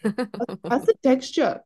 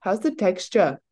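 First: Put-on slow, higher South African accent. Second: Put-on light South African accent. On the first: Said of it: "South African accent". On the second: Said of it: "give us the rendition".

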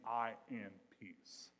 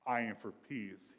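First: "I am peace" spaced out slowly; "I am peace", drawn out for emphasis; slow, deliberate wording. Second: Said in the usual way. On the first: Shown as a demonstration. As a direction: weigh each word of "I am peace". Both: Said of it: "he's literally saying".

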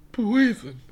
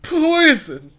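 First: Higher, less loud take of poison; softer repeat. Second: High, loud cry of poison; loud dramatic yell. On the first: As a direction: say it again, more softly. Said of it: "Aren't you gonna say that?". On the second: Catchphrase after taking shot. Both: Acted.

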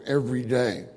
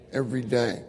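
The two takes are said the same way.

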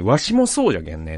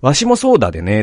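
First: Put-on quoting the old boss in a lightly western Hiroshima-style dialect, じゃけん; the wrong dialect, a relaxed Hiroshima-style じゃけんね; slip into Hiroshima-style dialect. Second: Put-on the old boss's words redone in Mikawa dialect, だでね; a plain-voiced Mikawa dialect ending だでね. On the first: Quoting his old boss on the balcony, in a slipped Hiroshima-style dialect. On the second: Correcting the boss's balcony words into Mikawa dialect. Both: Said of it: "三河弁で".

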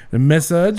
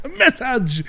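First: "massage" said with French stress, mass-AHJ; massage instead of message. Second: "message" said clearly as MESS-idj, much higher, laughing; message said right. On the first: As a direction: say "massage" like a French guest mixing words. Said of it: "he used the accent". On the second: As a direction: correct him with the proper "message". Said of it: "Oh, you mean a message?". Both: Retold or imitated.

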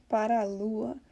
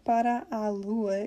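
First: "Para a lua" with both a's run into one; vowels merged. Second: "para a lua" slowly, both a's separate; words kept apart. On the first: Teacher showing the merge, "Para a lua" flowing together. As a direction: glide straight through "Para a lua". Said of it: "merges together". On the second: Teacher showing what the singer doesn't say, "para a lua" slowly unmerged. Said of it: "you don't hear him saying". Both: Shown as a demonstration.

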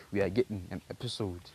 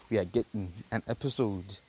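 No difference in how they are said.

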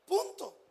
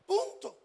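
No difference in how they are said.

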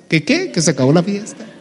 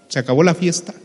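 First: Startled disbelief. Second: Said in the usual way. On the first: Acted. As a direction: act taken aback, querying the news with a rising end. Lazarus startled by the news. (incrédulo, sorprendido, en tono agudo)

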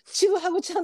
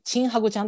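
First: "チグハグ" with a clear グ after チ; high-pitched "チグハグ", second sound gu, no ン; correct nickname. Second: "チンハグ" with an n sound for グ; quick "チンハグ", nasal ン in place of グ; mispronounced nickname. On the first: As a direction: say "チグハグ" as chi-gu-ha-gu. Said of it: "チグハグちゃんなんやと思って". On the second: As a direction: say "チンハグ", first part rhyming with "chin". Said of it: "チグハグちゃんって言った時に". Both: Shown as a demonstration.

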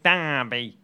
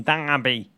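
First: DERBY drawn out slowly in mock Boston, "Daaahby"; exaggerated Boston accent. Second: Boston-accented DERBY with a long broad "ah"; attempted Boston accent. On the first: Host checking his Boston pronunciation, hammed-up Boston accent. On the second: Host guessing how Boston says Derby, Boston accent. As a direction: try DERBY as a Bostonian would. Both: Shown as a demonstration. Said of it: "how do you say it in Boston".

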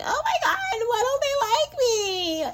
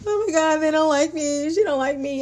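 First: High, wailing sob through a half laugh; mock your old self bawling with a laugh; hysterical crying. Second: Higher, lightly mocked whiny insecurity, no tears; mild mock whine without crying; insecure whining. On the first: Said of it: "I would be hysterically crying like". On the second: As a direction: parody the insecure girl, a touch of a whine. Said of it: "I would never say that again".

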